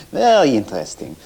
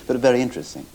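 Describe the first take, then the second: First: "Very" punched loud with a falling tune, then "interesting"; stress on Very. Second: Said in the usual way. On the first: Retold or imitated. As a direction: hit "Very" hard and let it fall. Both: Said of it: "it all depends how you say it".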